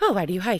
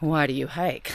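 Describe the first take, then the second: First: It is asked lightly and casually. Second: It is asked in a deep, philosophical way.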